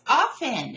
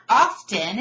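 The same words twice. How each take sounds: First: "often" as OFF-en, T silent; insisted-on pronunciation. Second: "often" as OFF-ten, T sounded; rejected pronunciation. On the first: Teacher acting out the debate, insistent T-less "often". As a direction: drop the T from "often". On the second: Teacher acting out the debate, "often" with a sounded T. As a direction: pronounce the T in "often". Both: Shown as a demonstration. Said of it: "It's not often, it's often".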